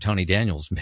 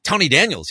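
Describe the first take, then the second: First: Said in the usual way. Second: High, loud echo of the name; surprised recognition. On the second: Retold or imitated. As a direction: imitate someone startled to hear a known name. Acting surprised recognition of his name.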